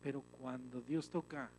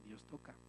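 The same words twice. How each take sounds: First: Said in the usual way. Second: Lower, much softer repeat of "Dios toca"; a quiet, lower echo of "Dios toca". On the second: Real, not acted. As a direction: let "Dios toca" fall to a hush. Soft repeat of the phrase.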